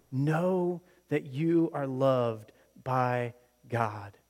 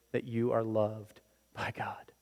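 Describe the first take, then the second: First: Slow, voiced and earnest; slow sincere emphasis. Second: Hushed whisper of assurance. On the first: Preacher repeating the line aloud, slow and sincere. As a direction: say it aloud, deliberately. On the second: Acted. Preacher whispering God's love to the congregation. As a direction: drop to a whisper.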